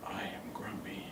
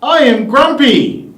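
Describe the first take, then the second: First: Whispered grumpy; low whisper. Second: Grumpy words pitched up; high pitch. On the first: The speaker trying grumpy low for the class. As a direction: hiss it out low. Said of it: "a really low pitch". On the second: The speaker trying grumpy in a high pitch. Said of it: "in a really high pitch". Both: Shown as a demonstration.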